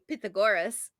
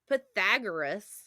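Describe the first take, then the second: First: The name is pronounced the Greek way. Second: The name is pronounced the usual Midwest American way. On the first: The speaker calls it right. "is actually Pythagoras if you play Assassin's Creed" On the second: The speaker calls it wrong. "that's how we were taught to say it in the Midwest"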